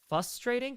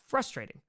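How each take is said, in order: First: The R after the F is left out. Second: The R after the F is clearly sounded. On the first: The speaker calls it wrong. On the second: The speaker calls it right.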